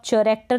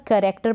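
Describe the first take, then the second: First: चरेक्टर with a ch sound at the start; wrong ch sound. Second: करेक्टर with a hard k sound at the start; correct k sound. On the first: Teacher warns students against saying चरेक्टर. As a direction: demonstrate the mistaken चरेक्टर with ch. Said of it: "नहीं पढ़ देंगे कि चरेक्टर पढ़ दिया". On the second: Teacher models करेक्टर for her students. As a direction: say करेक्टर as karektar. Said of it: "इसको आप चरेक्टर नहीं पढ़ देंगे". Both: Shown as a demonstration.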